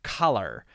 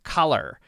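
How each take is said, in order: First: American accent, ending in a strong R. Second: American accent, ending in a strong R.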